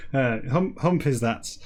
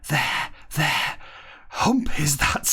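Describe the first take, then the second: First: Said in the usual way. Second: Whispered. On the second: Acted. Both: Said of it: "Starbuck whispered".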